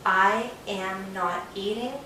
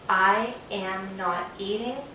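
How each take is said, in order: First: I am is said as two separate words. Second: I am is said as two separate words.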